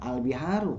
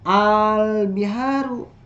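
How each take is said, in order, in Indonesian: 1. Vokal pertama pendek, panjangnya satu ketukan. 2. Vokal pertama dipanjangkan. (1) "jangan al biharu, karena itu nanti satu harokat" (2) "Maka agak panjang begini"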